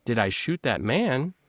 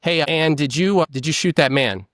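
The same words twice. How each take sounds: First: Slower, softer echo of the question; stalling re-ask. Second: Straight, direct question to a suspect; interrogator's question. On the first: Suspect echoing the officer's question, slow and stalling. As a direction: stall for time by repeating it back. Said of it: "buying yourself time by re-asking the question". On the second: Officer questioning Anne about a shooting, direct and plain. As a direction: ask it flat and direct like an officer. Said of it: "by re-asking the question". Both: Retold or imitated.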